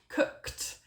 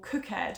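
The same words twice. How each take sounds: First: The ending is a short t sound. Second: The ending is said as an extra syllable. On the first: The speaker calls it right. "sometimes it's a t sound" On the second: The speaker calls it wrong. "like they are spelt ... which is just not right"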